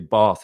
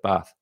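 First: The word is said in a posh accent. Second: The word is said in a plain accent. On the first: The speaker has taken on his partner's posh speech. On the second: The speaker is using his own usual speech.

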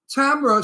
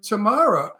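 First: The name rhymes with camera. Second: The name rhymes with tomorrow. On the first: "Tamara sounds like a camera" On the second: "Tamara sounds like, oh boy, I'm going to see her tomorrow"

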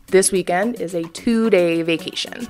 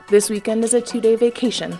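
First: It is said in a plain, soft way. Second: It is said with more force.

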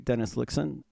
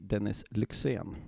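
First: The name is said with an American accent. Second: The name is said with a Swedish accent.

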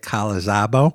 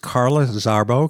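First: The r sounds are dropped, in a Boston accent. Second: The r sounds are fully pronounced. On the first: The speaker calls it wrong. "Not an easy name if you have a Boston accent, so I'm trying very hard not to say" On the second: The speaker calls it right. "but it is"

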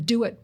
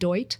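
First: It is said as two separate words. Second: It is blended into one single syllable.

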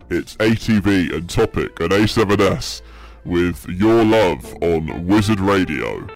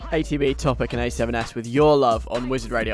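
First: It is said in a deep voice. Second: It is said in a normal voice.

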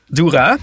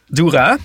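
First: The stress is on the second syllable. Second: The stress is on the second syllable.

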